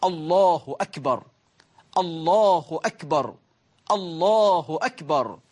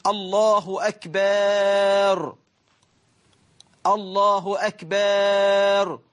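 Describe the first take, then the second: First: "الله أكبر" said slowly and cleanly, with a short hamza and no added vowels; correct takbir. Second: Very slow, with "أكبر" stretched into "أكبار" with a long aa; drawn-out akbaar. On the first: Preacher showing the right way to say the takbir. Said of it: "أما كيف نقول". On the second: Preacher mocking a worshipper who stretches akbar wrongly. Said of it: "وأكبر جمع كبر". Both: Shown as a demonstration.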